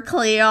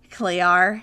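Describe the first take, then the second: First: Australian "Clear" with the R dropped, "Clee-ah"; Australian accent. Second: Put-on Australian accent with the R dropped. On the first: Shown as a demonstration. Showing her friend the Australian R, Australian accent. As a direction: give "Clear" the Australian R-less ending. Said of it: "I can only do the R's". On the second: Imitating her Australian ex calling his cat, Australian accent. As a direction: say "Clear" the Australian way, as "Clee-ah" with no R. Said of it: "great Australian accent".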